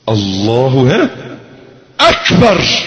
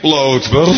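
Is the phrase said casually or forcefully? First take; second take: forceful; casual. First: It is said forcefully, with deep conviction. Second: It is said casually, without conviction. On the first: God is truly greater than everything one fears. The speaker calls it right. "لو قلتها صح" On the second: The words are said by rote, without meaning them. The speaker calls it wrong. "لا لا لا لا لا لا لا لا لا لا لا"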